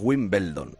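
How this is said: The name is said with Spanish-style sounds. This is how people here usually say it. The speaker calls it wrong. "Nosotros decimos Wimbledon"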